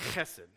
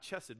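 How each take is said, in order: First: The first sound is harsh, from the throat. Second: The first sound is soft, without throat friction. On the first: The speaker calls it right. "a harder, ... but it'd be chesed" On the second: The speaker calls it wrong. "not chesed"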